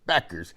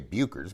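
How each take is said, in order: First: The first vowel sounds like 'beck'. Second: The first vowel sounds like 'boo'. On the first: The speaker calls it right. "but it's Beckers" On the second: The speaker calls it wrong. "I always say Buchers"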